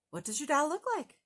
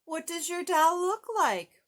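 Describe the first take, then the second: First: Quick, brisk grumpy question; lightly voiced grouch. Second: Higher, louder gentle bird; big bird questioning a sad child. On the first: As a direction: rattle it off like an eager grouch. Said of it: "said Oscar". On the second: Acted. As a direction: ask it like a kind, curious giant bird. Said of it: "said Big Bird".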